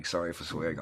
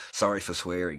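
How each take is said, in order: First: Said in the usual way. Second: A loud, cheeky sorry; loud apology. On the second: Real, not acted. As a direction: blurt it out loud and half-joking. Repeated apology, first take louder.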